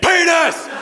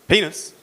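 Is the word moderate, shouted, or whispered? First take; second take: shouted; moderate. First: The word is shouted very loudly. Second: The word is said at moderate volume.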